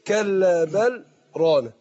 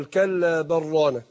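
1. سكت خفيف بدون تنفس يأتي بعد 'bal'. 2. اللام l تدغم في الراء r بدون سكت. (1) "سكت بدون تنفس" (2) "انا اضغم ايه، اللام في الراء"

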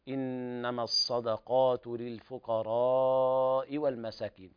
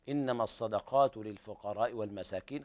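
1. المدّ قبل الهمزة يُمَدّ. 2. المدّ قبل الهمزة يُقصَر. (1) "فمدها" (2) "قرأها مرسلة بدون مد"

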